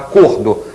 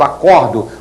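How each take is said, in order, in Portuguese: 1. A vogal o tônica é fechada. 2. A vogal o tônica é aberta. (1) "uma palavra de som fechado" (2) "uma de som aberto"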